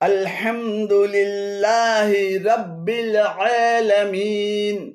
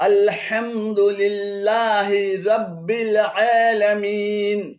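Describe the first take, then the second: Both takes have the same delivery.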